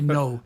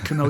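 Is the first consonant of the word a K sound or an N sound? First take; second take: N sound; K sound. First: The word begins with an N sound. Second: The word begins with a pronounced K sound. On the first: The speaker calls it right. "you say no" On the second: The speaker calls it wrong. "you don't say canoe"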